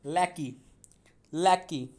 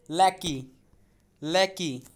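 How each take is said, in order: Both takes have the same delivery.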